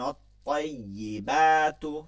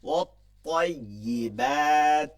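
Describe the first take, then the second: First: The word ends with a final u vowel. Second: The word ends without a final vowel. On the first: The reciter continues without stopping. "অথবা এরকম পড়তে পারেন" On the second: The reciter stops at this word. "থামা যায় এভাবে ইচ্ছা করলে"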